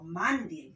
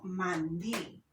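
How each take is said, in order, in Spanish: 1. El acento está en la primera sílaba. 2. El acento está en la última sílaba. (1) "Yo no digo mandil" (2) "sino mandil"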